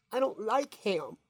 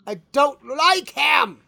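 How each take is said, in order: First: Lightly voiced kid, quieter; a touch of a kid saying no; kid refusing. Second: Put-on kid shouting refusal. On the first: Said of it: "And the kid goes". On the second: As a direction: yell it like a fed-up kid. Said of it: "And he goes".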